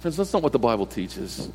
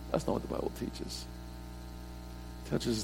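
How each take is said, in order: First: Said in the usual way. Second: "That's not what the Bible teaches" whispered, soft and quick; hushed whispered echo of "That's not what the Bible teaches". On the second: Shown as a demonstration. Repeated line, second whispered.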